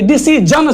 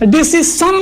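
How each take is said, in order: First: The middle consonant is a buzzing 'zh' sound. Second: The middle consonant is a hissing 's' sound. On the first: The speaker calls it right. "डिसीजन चाहिए" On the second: The speaker calls it wrong. "डिसीसन नहीं चाहिए"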